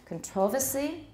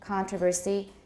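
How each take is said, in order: First: The stress falls on the second syllable. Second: The stress falls on the first syllable. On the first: This is the British way of saying it. "Controversy in British" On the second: This is the American way of saying it. "controversy in American"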